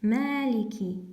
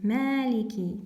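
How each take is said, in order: No difference in how they are said.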